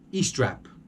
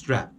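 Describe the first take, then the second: First: An extra e vowel comes before the word. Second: The word starts directly with the s sound. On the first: The speaker calls it wrong. "this crazy e at the beginning of of the the word that doesn't exist" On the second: The speaker calls it right. "The word strap is strap"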